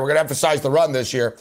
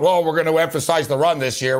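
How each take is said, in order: First: Rattled off fast and lower, a tired repeat; fast mocking echo of the empty promise. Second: Half-hearted mock quote of the empty annual promise; mock team promise. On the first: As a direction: toss off the same pledge quickly, as if it's said every year. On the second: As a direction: parrot the Lions' yearly pledge with a touch of scorn. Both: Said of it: "have been talk".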